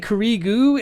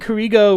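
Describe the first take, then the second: First: The last vowel is an 'oo' sound. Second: The last vowel is an 'oh' sound. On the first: "would pronounce like the O vowel as oo" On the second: "instead of saying Kurigo"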